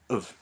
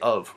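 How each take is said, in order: First: The word is said quickly and squeezed short. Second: The word is said slowly with its full vowel. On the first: "It's really quick, and I squeeze my words" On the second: "I don't say of when I speak"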